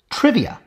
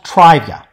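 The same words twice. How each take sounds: First: The stressed vowel is short. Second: The stressed vowel is long. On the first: This is the actual modern pronunciation. The speaker calls it right. "It's trivia" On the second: This is the expected pronunciation if lengthening had happened. The speaker calls it wrong. "not trivia"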